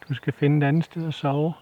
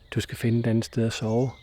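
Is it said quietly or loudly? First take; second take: loudly; quietly. First: It is said loudly, with rising force. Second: It is said quietly and calmly.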